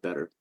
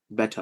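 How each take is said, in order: First: Said in the usual way. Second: "Better" in an enunciated, British-like Indian accent. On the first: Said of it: "we just enunciate the words". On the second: Shown as a demonstration. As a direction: say "Better" Indian-style, crisp consonants, ending in "ah". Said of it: "I can do an Indian accent".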